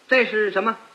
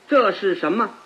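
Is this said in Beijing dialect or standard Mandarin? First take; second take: Beijing dialect; standard Mandarin. First: It is said with a Beijing dialect pronunciation. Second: It is said in standard Mandarin pronunciation. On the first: "你要用北京话说，就跟这不一样了" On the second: "用普通话说最好懂了"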